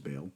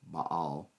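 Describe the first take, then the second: First: The name is said in its popular form. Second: The name is said in its more accurate form. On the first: This is how most people commonly say it. "popularly referred to as Baal" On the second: This is closer to the original pronunciation.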